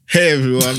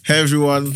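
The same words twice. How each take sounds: First: It is said in an urban street style. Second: It is said in a plain, non-urban style.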